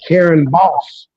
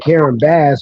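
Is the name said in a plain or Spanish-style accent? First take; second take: Spanish-style; plain. First: The name is said with a Spanish-style accent. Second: The name is said in a plain American way. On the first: "They they use an accent" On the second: This is how the speaker's own group says it. "We be saying that"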